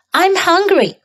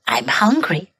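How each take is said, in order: First: High voice. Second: Hushed whisper. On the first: Practice take. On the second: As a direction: whisper it softly. Whispered practice take. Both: Shown as a demonstration.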